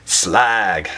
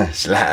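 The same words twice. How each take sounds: First: Drawn-out mock Cockney Slag; faux Cockney. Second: Said in the usual way. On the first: Beer reviewer jokingly naming the beer, mock Cockney. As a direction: say Slag in a slow put-on Cockney. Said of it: "faux Cockney accent there". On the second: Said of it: "I don't know why I did it".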